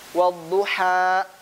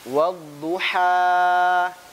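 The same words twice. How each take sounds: First: The final vowel ends in a glottal stop. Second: The final vowel is held overly long. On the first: "ada hamzah" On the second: "Kalau kepanjangan misalnya wadduha, tiga harokat itu"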